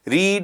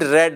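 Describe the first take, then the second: First: It is said with a long 'ee' vowel. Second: It is said with a short 'e' vowel. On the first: It is the present form of the verb. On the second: It is the past form of the verb.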